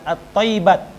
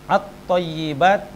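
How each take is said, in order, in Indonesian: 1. Bunyi y pendek dan dibaca tunggal. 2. Bunyi y ditahan dan dibaca ganda. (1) "jadi bukan dibaca" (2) "di atas ta wal ya'i dan ya"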